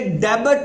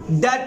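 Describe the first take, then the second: First: The word is said with a b sound. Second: The word is said without a b sound. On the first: The speaker calls it wrong. "यहाँ ये डेबिट नहीं पढ़ना" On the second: The speaker calls it right. "अगर एंड पे बी T आ जाए तो ये बी जो है साइलेंट हो जाता है"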